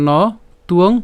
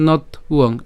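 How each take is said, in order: First: "ন তুয়ং" said as no, pause, tuong; "ন তুয়ং" with the break before the t; alternative pronunciation. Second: "নথ উয়ং" broken as not, then uong; "নথ উয়ং" with the w sound split off; split pronunciation. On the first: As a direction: leave "ন" open and put the t on "তুয়ং". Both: Shown as a demonstration. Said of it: "যেভাবে উচ্চারণ করেন".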